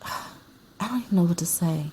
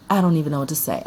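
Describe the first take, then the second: First: Sigh, then a breathy whisper; lost for words, whisper it after a sigh. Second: Said in the usual way. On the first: Real, not acted. At a loss over movie.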